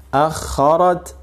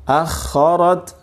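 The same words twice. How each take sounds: The two takes are said the same way.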